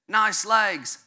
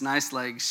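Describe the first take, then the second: First: It is said in a put-on British accent. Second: It is said in the speaker's plain accent. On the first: "you got to do it with the British accent" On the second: "if you couldn't understand my terrible British accent"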